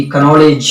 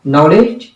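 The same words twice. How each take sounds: First: कनॉलेज with the silent k sounded as a full ka; wrong silent k. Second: नॉलेज with the k silent, starting on n; correct silent k. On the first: Retold or imitated. Teacher mocks the mistake: कनॉलेज with the k spoken. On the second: Shown as a demonstration. Teacher corrects the students: नॉलेज with silent k. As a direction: say नॉलेज cleanly as nowledge, no k. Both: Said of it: "कनॉलेज नहीं बल्कि नॉलेज".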